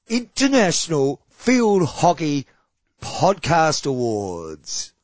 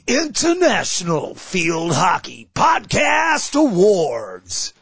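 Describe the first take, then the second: First: It is said in a normal speaking voice. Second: It is said in a special put-on voice.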